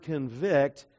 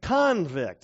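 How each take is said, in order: First: Convict said as con-VICT, stress on the second syllable; preacher to congregation: the verb convict, stress on the end. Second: Convict said as CON-vict, stress on the first syllable; preacher shows the changed emphasis: Convict, stress on CON; noun convict. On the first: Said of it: "but say it a little bit different". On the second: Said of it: "Just change the emphasis or the syllables". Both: Shown as a demonstration.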